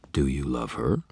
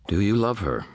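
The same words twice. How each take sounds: First: "her" swept up in a questioning rise; level start, then a clear lift on "her"; pressing. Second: "love her" asked on a high, falling tune; higher-pitched question, "you" lifted, then dropping at "her"; asking. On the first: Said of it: "he pressed". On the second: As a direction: put the question brightly high, falling at the end. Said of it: "he asked". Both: A narrator's reading.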